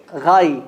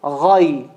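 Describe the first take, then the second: First: Ghay said light and thin, not heavy; the mistaken light ghay; wrong ghay. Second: Ghay said low and heavy from the throat; a deep, full Ghay. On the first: Teacher warns the class off a light ghay. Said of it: "be careful from saying ghay". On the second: Teacher models the heavy Ghay for students. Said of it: "Not ghay". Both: Shown as a demonstration.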